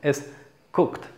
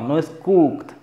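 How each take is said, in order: First: The vowel is a short, lax u sound. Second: The vowel is a long, tense u sound. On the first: The speaker calls it right. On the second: The speaker calls it wrong.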